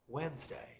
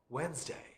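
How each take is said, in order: First: The D sound in the middle is silent. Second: The same.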